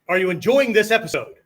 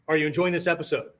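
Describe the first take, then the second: First: It sounds wishy-washy, somewhat more forceful. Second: It sounds like a genuine, questioning inquiry.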